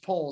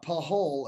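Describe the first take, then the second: First: The name is said with one syllable. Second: The name is said with two syllables. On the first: The speaker calls it right. "it's Pole" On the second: The speaker calls it wrong. "it's not Pahol"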